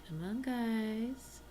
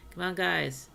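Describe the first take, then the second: First: "Come on, guys" drawn out slowly, higher, rising at the end; coaxing. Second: "Come on, guys" pushed out louder, falling at the end; loud urging. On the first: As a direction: coax them along, stretched and sing-song. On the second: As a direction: urge the villagers on firmly. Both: Real, not acted. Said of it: "Am I being encouraging".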